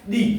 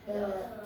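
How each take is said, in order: First: The vowel is long and high, like 'thee'. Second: The vowel is short and neutral, like 'thuh'. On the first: The next word begins with a vowel sound. "अगर जिस noun का पहला वर्ण कैसा आ जाए? स्वर। ... तो तब आपको क्या बोलना है? दी।" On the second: The next word begins with a consonant sound. "अगर पहले वर्ण का उच्चारण व्यंजन आता है तब तो हमको द लगने पर द बोलना है"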